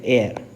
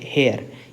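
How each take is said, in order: First: The word begins directly with a vowel sound. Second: The word begins with an audible h sound. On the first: The speaker calls it right. "ये हेयर नहीं है, ये है एयर" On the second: The speaker calls it wrong. "मैंने जिसको गलत pronounce किया है"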